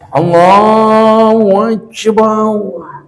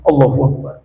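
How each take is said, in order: First: It is said slowly with a drawn-out melody. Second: It is said fast and rushed.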